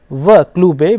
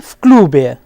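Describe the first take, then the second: First: The preposition is a separate voiced v sound. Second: The preposition joins the noun as an f sound.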